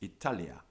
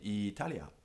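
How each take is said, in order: First: The first vowel is kept short. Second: The first vowel is drawn out long. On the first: The speaker calls it right. "It's Italia" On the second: The speaker calls it wrong. "you should say Italia. But you shouldn't"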